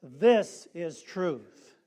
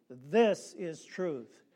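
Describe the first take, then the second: First: "This is truth" very slow and louder, THIS hit hard; with emphasis. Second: Slow "This is truth", THIS stressed, steady; say it together. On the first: Preacher asks for emphasis, says it slow and loud. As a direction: hammer each word home. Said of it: "Let's say it with emphasis". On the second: Preacher leads the congregation in the refrain, slow. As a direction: lead the refrain slowly. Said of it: "Say it with me". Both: Shown as a demonstration.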